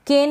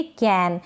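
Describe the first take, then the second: First: केन with long "ay", like "cane"; higher-pitched केन with a closed e vowel; wrong pronunciation. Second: कैन with short open "ae", as in "can"; correct pronunciation. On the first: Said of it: "नहीं पढ़ेंगे". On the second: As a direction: say कैन with open vowel, falling. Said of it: "इसको पढ़ेंगे कैन". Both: Shown as a demonstration.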